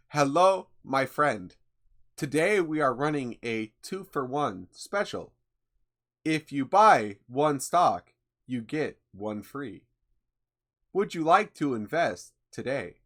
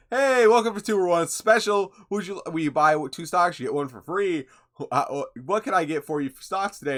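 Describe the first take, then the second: First: Lightly robotic scam-bot sales voice, slowed on the offer; a mild hint of a robot salesman pitching stocks; robot impression. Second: Higher, louder robotic sales pitch; robot impression. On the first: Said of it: "let's see how good my robot impression got". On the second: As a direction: play a chirpy scam bot pushing stocks. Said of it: "Sounds perfectly human".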